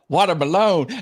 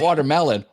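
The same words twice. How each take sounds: First: The word is pronounced in an odd way. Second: The word is pronounced the usual way. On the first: "he would mispronounce watermelon" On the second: "not watermelon"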